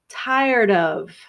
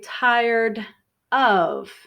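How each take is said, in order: First: The two words are linked together smoothly. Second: The two words are said separately. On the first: "but we are linking these together" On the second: "If I say correctly, tired of, you will hear me separate the words"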